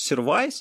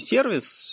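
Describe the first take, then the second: First: The second vowel is an ai sound. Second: The second vowel is a plain i sound. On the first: "то вот это проблема, потому что это какое-то вымышленное произношение" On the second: "неважно"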